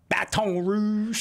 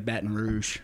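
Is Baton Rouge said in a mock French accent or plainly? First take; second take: mock French; plainly. First: It is said in an exaggerated French-style accent. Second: It is said plainly, with a clipped first word. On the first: This is how outsiders try to sound local. The speaker calls it wrong. "they're trying to like do the Cajun thing. They're like" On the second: This is how locals say it. The speaker calls it right. "we just normally say Baton Rouge. Kind of like asking, batting"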